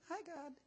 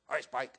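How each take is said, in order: First: It is said in a squeaky, pious voice. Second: It is said in a normal voice.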